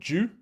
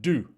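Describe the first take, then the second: First: The word is said in a non-American accent. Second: The word is said in an American accent. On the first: It may be heard as a different word. The speaker calls it wrong. "Otherwise, it sounds like I'm saying a different word" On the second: It is heard as the intended word. The speaker calls it right. "I had better say that with an American accent"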